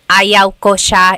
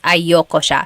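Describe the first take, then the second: First: The first two words are said separately. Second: The first two words are run together. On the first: "separate them" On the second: "you put everything together"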